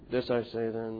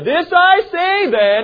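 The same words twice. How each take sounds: First: It is read quietly and timidly. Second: It is read in a silly, exaggerated way. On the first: The reader feels shy about reading aloud. "You don't have to read it like" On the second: The reader is mocking the reading. "you don't have to be dumb about it either"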